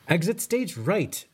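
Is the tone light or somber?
light. It is said in a light, jokey tone.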